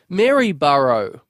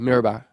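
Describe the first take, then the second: First: The name is said the way outsiders say it. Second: The name is said the way locals say it. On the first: The speaker is not from the town. The speaker calls it wrong. "out of towners come along and they say" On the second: The speaker is from the town. The speaker calls it right. "The locals, we just go"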